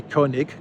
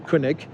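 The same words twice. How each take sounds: First: "Koenig" said as KOH-nik, long o; careful pronunciation. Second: "Koenig" said as KOO-nik, short oo sound; second try at the name. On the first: Checking a Swedish politician's name, KOH-nik. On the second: Second attempt at the politician's name, KOO-nik. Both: Shown as a demonstration. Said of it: "I hope I'm pronouncing her name correctly".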